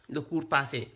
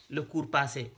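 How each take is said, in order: Both takes have the same delivery.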